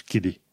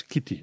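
First: "Kiddy", Kitty said with a D; American D sound. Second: "Kitty" with a true T; clear T. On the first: Teacher recapping what to avoid, "Kiddy" with D. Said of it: "nu zici Kiddy". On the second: Teacher recapping right way, "Kitty" with clear T. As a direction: sound the T in "Kitty". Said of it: "T-ul trebuie pronunțat ca T". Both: Shown as a demonstration.

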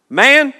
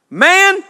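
First: Man said loud, then a clear pause for the comma; comma after man. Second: Man called out high and loud; calling out man. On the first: Jesus answering the man, Man then a comma pause. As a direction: land Man and hold the comma before going on. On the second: Jesus answering the man in the crowd, calling out Man. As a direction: fling out the word Man as a call. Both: Shown as a demonstration. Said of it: "there's a comma there".

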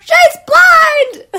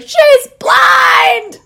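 First: Very high, loud shout; screaming at the dog again; retold yell. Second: High, loud laughing shout; screaming she's blind at a dog; retold yell. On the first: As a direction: shriek it again even louder. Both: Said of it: "yelling as I left the dog park".

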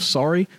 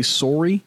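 First: Said in the usual way. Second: "sorry" with a Canadian "sore" first syllable; Canadian pronunciation. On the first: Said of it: "instead of sorry". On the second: Shown as a demonstration. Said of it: "I feel like Canadians are more polite".

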